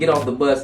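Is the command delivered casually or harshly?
harshly. It is barked harshly like a drill sergeant. It comes across as an aggressive order. "a drill sergeant saying"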